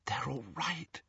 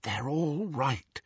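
First: Soft relieved whisper. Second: Slow, softer breathy whisper. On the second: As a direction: whisper it slowly to calm him. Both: A narrator's reading. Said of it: "she whispered".

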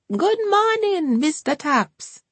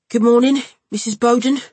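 First: High and slow sing-song welcome; Hortense greeting. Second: Louder nasal Cockney hello; a loud, through-the-nose Cockney greeting; Ryan's greeting. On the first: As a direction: draw the greeting out high and sweet. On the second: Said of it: "said Mister Topps". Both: A narrator's reading.

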